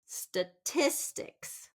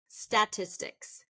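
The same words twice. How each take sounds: First: The stress is on the second syllable. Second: The stress is on the first syllable. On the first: The speaker calls it right. "We want it to be second syllable stress" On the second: The speaker calls it wrong. "first syllable stress"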